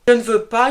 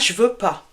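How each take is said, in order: First: The word ne is clearly pronounced. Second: The word ne is left out entirely.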